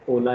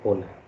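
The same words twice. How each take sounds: First: The word starts with no h sound. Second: The word starts with an audible h sound. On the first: The speaker calls it right. "H is silent. So Ola is what you pronounce" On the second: The speaker calls it wrong. "Do not ever say Ola"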